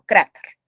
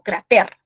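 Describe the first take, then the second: First: The stress is on the first syllable. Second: The stress is on the last syllable. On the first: The speaker calls it right. "la penúltima sílaba es la tónica" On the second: The speaker calls it wrong. "yo no digo cráter"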